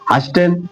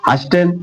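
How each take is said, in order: First: The t sound is pronounced in the middle. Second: The t sound is pronounced in the middle.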